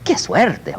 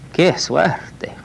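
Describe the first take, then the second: First: It sounds pleased and delighted. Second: It sounds dismayed and sorry. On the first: The luck is good. "Oh, wonderful. Que bueno" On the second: The luck is bad. "Oh boy"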